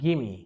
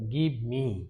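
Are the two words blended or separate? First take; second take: blended; separate. First: The words run together, dropping the v sound. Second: Both words are said fully and separately. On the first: The speaker calls it right. "এটা উচ্চারণটা হয়ে যাচ্ছে গিমি" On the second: The speaker calls it wrong. "আমরা এটাকে এভাবে বলতাম"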